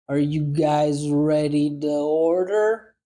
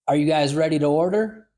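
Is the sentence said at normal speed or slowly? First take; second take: slowly; normal. First: It is said slowly and deliberately. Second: It is said at a normal conversational speed. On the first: "Second time, slow" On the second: "First time, normal speed"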